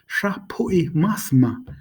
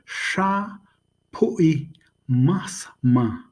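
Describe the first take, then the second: First: The phrase is said quickly, run together. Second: The phrase is said slowly, syllable by syllable. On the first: "You'd say it fast" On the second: "you probably could say it that slow"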